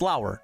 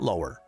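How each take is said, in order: First: The name does not sound like 'lower'. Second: The name sounds like the word 'lower'. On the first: The speaker calls it right. "it's Lauer" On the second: The speaker calls it wrong. "not Lower"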